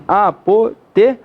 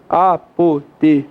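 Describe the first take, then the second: First: Apoteose split slowly the wrong way, as written; slow wrong-split demo; wrong syllable split. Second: Apoteose split slowly into a-po-te-o-se; slow correct-split demo; correct syllable split. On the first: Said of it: "Tá escrito assim". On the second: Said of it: "Qual é a separação normal". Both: Shown as a demonstration.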